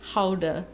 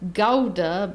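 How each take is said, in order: First: The word begins with a breathy H-like sound. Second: The word begins with a hard G sound. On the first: The speaker calls it right. "G's are pronounced as H's" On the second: The speaker calls it wrong. "it's not pronounced Gouda"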